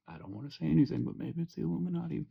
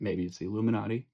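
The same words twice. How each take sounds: First: "maybe it's the Illuminati" higher, softer and fast; mock-conspiratorial murmur; hushed conspiracy. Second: Said in the usual way. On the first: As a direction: drop "Illuminati" like a hushed secret. Repeats line as hushed conspiracy.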